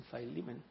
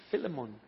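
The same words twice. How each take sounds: First: Philemon said "fye-LEE-men"; long eye sound opening Philemon; English name variant. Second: Philemon said "FILL-eh-mon"; short i in Philemon, first syllable "fill"; English name variant. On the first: Others say it so, Philemon as "fye-LEE-men". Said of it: "otros dicen Philemon". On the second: Some people say it so, Philemon as "FILL-eh-mon". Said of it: "Algunos dicen Philemon". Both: Shown as a demonstration.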